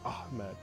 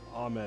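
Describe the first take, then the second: First: The H is said with strong, audible emphasis. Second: The H is said plainly, without extra force. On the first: The speaker calls it right. "You're supposed to say like Ahmed" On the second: The speaker calls it wrong. "you're not just supposed to say like Ahmed as like straight"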